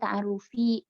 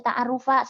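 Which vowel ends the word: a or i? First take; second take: i; a. First: The word ends with an i vowel. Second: The word ends with an a vowel. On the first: The word is in the genitive case. The speaker calls it right. "harus dibaca ta'arrufi" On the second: The word is in the accusative case. The speaker calls it wrong. "nggak boleh dibaca ta'arrufa"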